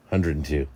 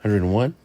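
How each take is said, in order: First: Said in the usual way. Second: Hundred and one asked with a rising end; tentative guess at the number; questioning guess. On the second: Shown as a demonstration.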